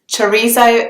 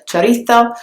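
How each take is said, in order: First: It is said with a British English pronunciation. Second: It is said with a Spain Spanish th sound. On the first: "the English pronunciation of the word" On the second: "in Spanish you would say the Z sound very differently"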